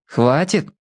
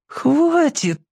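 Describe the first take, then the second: First: Calm, even word. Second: High pleading cry; plaintive. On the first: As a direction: say it coolly and calmly. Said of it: "спокойно сказал Шурик". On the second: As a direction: beg it plaintively. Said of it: "жалобно попросил Яшка". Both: A narrator's reading.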